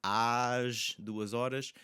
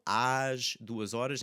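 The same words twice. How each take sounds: First: "às" stretched, very slow and open; open às drawn out. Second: "às" with a slow, open a. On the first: Teacher repeating "às duas horas" for students, even slower. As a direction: draw out the open "às". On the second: Teacher modelling "às duas horas" for students, open vowel. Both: Shown as a demonstration. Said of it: "it's an open sound".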